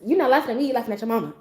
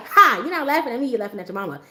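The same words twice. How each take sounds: First: Deadpan, flat delivery of the line; straight face. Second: Can't hold the straight face; laughing comeback. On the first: Shown as a demonstration. Big sister showing her how, deadpan. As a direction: say it dead serious, no laugh. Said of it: "Just straight face". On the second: Retold or imitated. Little sister rehearsing the insult, laughing through it. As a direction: giggly take of the line. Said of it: "She was just like".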